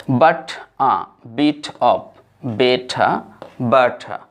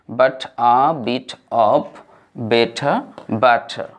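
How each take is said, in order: No difference in how they are said.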